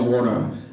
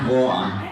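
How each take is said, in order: First: It is said in an American accent. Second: It is said in a British accent.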